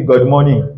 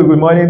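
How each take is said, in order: First: GOOD said as "God"; mispronounced GOOD. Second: Said in the usual way. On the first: Shown as a demonstration. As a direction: open the vowel of GOOD into "God". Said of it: "toi, tu nous dis good morning". (GOOD prononcé comme « God ») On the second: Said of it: "Au lieu de good morning".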